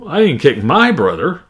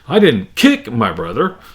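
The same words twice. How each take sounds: First: The stress falls on the word my. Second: The stress falls on the word kick. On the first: A friend's brother was kicked instead. "Another way, uh, my" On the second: The brother was beaten up without kicking. "Or if I change it to kick"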